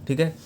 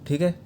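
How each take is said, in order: No difference in how they are said.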